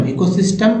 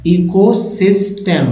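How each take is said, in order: First: Said in the usual way. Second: "ecosystem" बहुत धीमे खींचकर; slow demo word. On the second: Shown as a demonstration. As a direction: draw out "ecosystem" slowly. (धीमे उच्चारण में "ecosystem") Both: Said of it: "reading word by word demo".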